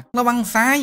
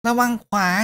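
First: High loud call, ระวังซ้าย rising at the end; kid cheering. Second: Put-on kid cheering. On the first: Acted. Kid cheers the fighting hero, high rising shout. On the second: Kid cheers the fighting hero, high falling shout. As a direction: yell ระวังขวา and drop at the end. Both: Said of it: "ร้องเชียร์".

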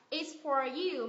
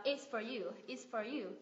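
First: "for" clear and full; full for you. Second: "for" weakened to fuh, softer; reduced its fuh you. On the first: Teacher giving the careful version. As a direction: say "It's for you" word by word. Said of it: "Thay vì đọc là". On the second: Teacher modelling native linking. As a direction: glide "It's for you" together. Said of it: "mình đọc là". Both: Shown as a demonstration.

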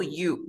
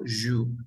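First: You said as a bare vowel "oo", no y sound; teacher showing the wrong you as plain "oo". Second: You said with a strong y glide, almost "zhoo"; teacher showing the correct you with its y; right you. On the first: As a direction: say you without the y, as the mistake. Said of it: "Yo no digo you". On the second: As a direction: give you a clear y onset, the correct way. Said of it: "yo digo you". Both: Shown as a demonstration.

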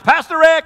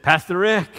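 First: Higher, louder call from outside; cheerful holler from the road; hollered greeting. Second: Mild sheepish mumble; understated shy greeting. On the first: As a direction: call his name across the yard. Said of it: "He'd holler in the house". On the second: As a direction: say it a bit embarrassed, head down. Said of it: "in kind of a sheepish voice". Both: Retold or imitated.

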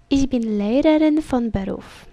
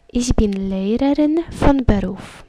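The two takes are said the same way.

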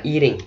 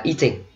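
First: American-style eating; American pronunciation. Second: Eating said the British way, clear T; British-style eating; British pronunciation. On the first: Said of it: "Mỹ đọc là eating". ("eating" đọc kiểu giọng Mỹ) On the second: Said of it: "giọng Anh mình đọc là eating". ("eating" đọc kiểu giọng Anh) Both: Shown as a demonstration.

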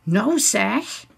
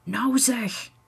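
First: Licht nagebootste verontwaardiging, stijgend slot; zachtjes herhalend. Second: Hoger, ingehouden nijdig; nijdig fluisterend. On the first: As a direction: herhaal het ingehouden, als weerwoord. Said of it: "herhaalt Stef zachtjes". (zachtjes herhalen) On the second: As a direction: sis het verontwaardigd, niet luid. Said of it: "fluistert Wietske nijdig". (nijdig gefluister) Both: A narrator's reading.

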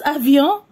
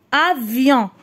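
First: Said in the usual way. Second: "Avion" in measured syllables, falling at the end. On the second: Shown as a demonstration. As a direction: read "Avion" as a-vion. ("Avion" مقطعًا مقطعًا) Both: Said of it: "نقراو les syllabes".

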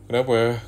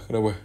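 First: Sharp, loud why; loud snap. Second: Said in the usual way. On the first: Acted. Snapping the question at the crying girlfriend, loud. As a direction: bark the question at her.

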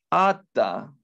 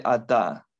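First: Ata stressed on the first a, drawn out; pausal stress. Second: Ata with the stress on the final ta; regular stress. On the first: Teacher modelling pausal ata at the verse end. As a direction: hit the first syllable of ata. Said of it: "en vez de ata". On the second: Teacher giving the usual masculine ata in contrast. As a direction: say ata stressing the last syllable. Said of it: "Normalmente va a ser ata". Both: Shown as a demonstration.

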